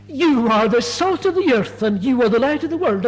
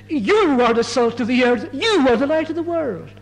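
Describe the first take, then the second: First: Said in the usual way. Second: "You" leaned on hard at the start of each clause; emphatic. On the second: Shown as a demonstration. Preacher repeating Jesus' words to the congregation, emphatic. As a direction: declare "you are the salt" with weight, rising on "you are the light". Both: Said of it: "it's put so emphatically".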